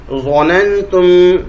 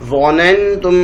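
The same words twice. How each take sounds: First: ظننتم drawn out slowly, each syllable clear. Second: Said in the usual way. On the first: Shown as a demonstration. Teacher to students, modelling ظننتم slowly for recitation. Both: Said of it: "ہجے ایسے کریں گے".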